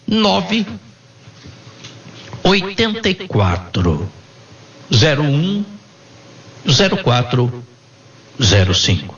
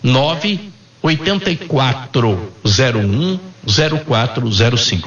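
First: The number is said slowly and deliberately. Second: The number is said at normal, faster speed.

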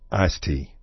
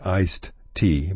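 First: Iced tea is said Texan-style, without the d sound. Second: Iced tea is said fully, with the d sound.

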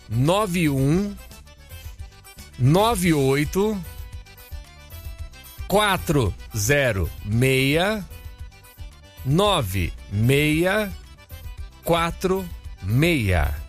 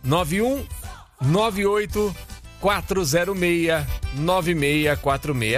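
First: The number is read slowly. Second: The number is read at normal speed.

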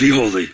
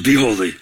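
First: It is said sternly, like an arresting officer. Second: It is said sternly, like an arresting officer.

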